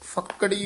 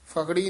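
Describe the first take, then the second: First: The middle k sound is doubled and held long. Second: The middle k sound is single and short. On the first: The speaker calls it right. "ਫੱਕੜੀ ਉਚਾਰਨ ਕਰਨਾ ਹੈ" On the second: The speaker calls it wrong. "ਫਕੜੀ ਨਹੀਂ ਕਹਿਣਾ"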